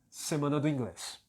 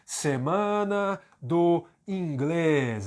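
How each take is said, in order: First: No word is emphasized; the phrase is reduced. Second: Each word is said fully with emphasis. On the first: This is how it sounds in everyday speech. "A pronúncia fraca é semana do inglês. Quando eu não enfatizo nenhuma palavra" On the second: This is how it sounds when reading aloud. "Essa é a pronúncia forte"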